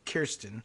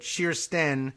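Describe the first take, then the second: First: The name begins with a hard K sound. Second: The name begins with an SH sound. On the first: This is how an American might say it. "she might very well just say Kirsten" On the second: This is how it is said in Norwegian. "that K J sound is sort of a like an S H sound"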